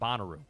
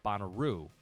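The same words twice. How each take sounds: First: The final syllable carries no special emphasis. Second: The final syllable carries the emphasis. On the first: Outsiders say it this way. The speaker calls it wrong. "not Bonnaroo" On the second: Insiders say it this way. The speaker calls it right. "they put a different emphasis on the tail end"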